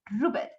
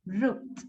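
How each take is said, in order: First: "roofed" in two syllables, like roof-ed; wrong added syllable. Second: Low "roofed" with silent E; correct single syllable. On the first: Teacher shows what we cannot say, extra -ed syllable. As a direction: sound the E in "roofed" mistakenly, rising. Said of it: "No podemos decir". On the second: Teacher corrects the very bad form, no extra syllable. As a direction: say "roofed" as one syllable, F into final stop. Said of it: "this is wrong". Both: Shown as a demonstration.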